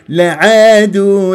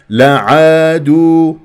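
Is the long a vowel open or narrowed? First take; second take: narrowed; open. First: The long a vowel is narrowed toward e. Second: The long a vowel is fully open. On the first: The speaker calls it wrong. "غلط" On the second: The speaker calls it right. "هكذا بهذه الطريقة"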